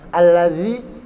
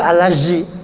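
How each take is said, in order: First: The middle consonant is a voiced th sound. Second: The middle consonant is a z sound. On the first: The speaker calls it right. "Alladzi itu zal" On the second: The speaker calls it wrong. "apalagi alazi. Zai salah"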